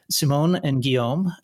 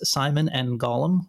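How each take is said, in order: First: The names are pronounced with French sounds. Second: The names are pronounced with English sounds. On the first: "I'm going to try the French pronunciation first" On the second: "and in English, it's"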